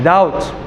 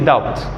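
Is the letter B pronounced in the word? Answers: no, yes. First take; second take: no; yes. First: The B sound is silent. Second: The B sound is pronounced. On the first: The speaker calls it right. "of course the B is silent" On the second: The speaker calls it wrong. "He would never say doubt"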